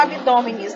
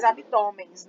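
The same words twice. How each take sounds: First: "abdômenes" with four syllables and a separate -nis ending; rarely used -es form. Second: "abdômenes" shortened to abdômens, with nasal -ens ending; common -ens form. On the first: Teacher citing the form people don't say, "abdômenes" ending in -me-nis. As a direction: say "abdômenes" with the extra syllable after -me-. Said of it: "a gente nem fala abdômenes". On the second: Teacher giving the form people usually say, "abdômenes" contracted to abdômens. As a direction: say "abdômenes" as abdômens, no extra syllable. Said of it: "A gente fala mais".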